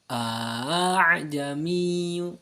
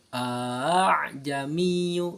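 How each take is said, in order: No difference in how they are said.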